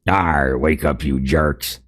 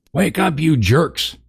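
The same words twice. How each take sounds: First: Lightly growled pirate-ish brute, slow; narc voice. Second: High, slow, strained harsh shout; a shrill first try at the narc; first harsh snarl. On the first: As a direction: snarl it like a brutish orc. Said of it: "I gotta do my narc voice". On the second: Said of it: "snarled a harsh voice". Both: Acted.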